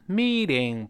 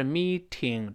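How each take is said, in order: First: "meeting" with t softened to a flap; voiced t in MEETING. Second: "meeting" with a crisp aspirated t; hard t in MEETING. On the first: Teacher correcting pronunciation, flapped t in MEETING. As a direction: run a light voiced t through "meeting". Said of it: "字母T得有浊化". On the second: Teacher showing the mistake, hard t in MEETING. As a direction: split "meeting" as mee-Ting. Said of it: "不是meeting". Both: Shown as a demonstration.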